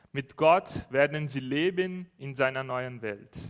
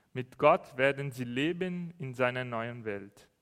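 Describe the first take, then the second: The two takes are said the same way.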